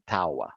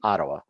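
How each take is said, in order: First: It is pronounced the way Brazilians say it. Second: It is pronounced the way English speakers say it. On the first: "usually in Brazil, they say Ottawa" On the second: "in English, we say Ottawa"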